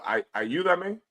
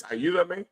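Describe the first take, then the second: First: Tentative Spanish "ayúdame". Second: "Ayúdame" said again, steadier; Spanish ayúdame. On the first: Teacher tries standard Spanish for help, tentative. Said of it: "You would say". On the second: Teacher settles on standard Spanish word. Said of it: "I guess". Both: Shown as a demonstration.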